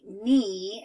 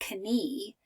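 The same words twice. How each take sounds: First: The K sound is silent at the start. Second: The K sound is pronounced at the start. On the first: The speaker calls it right. "I would just say knee, and the K is quiet" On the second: The speaker calls it wrong. "I would not read it like I fell down and skinned my knee"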